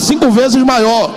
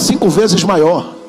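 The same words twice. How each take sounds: First: It is said loudly. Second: It is said at normal volume.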